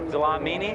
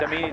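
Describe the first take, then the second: First: The name is said with an L sound. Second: The name is said without an L sound. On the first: "Dlamini is tough" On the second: "I think the L might be silent. ... Damini is easier"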